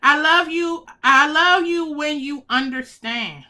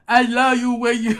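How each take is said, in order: First: Said in the usual way. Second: Odd emotional reading. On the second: Shown as a demonstration. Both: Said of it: "Why did I read it like".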